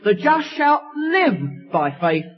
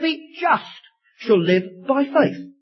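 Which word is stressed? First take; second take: live; just. First: The stress is on the word live. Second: The stress is on the word just.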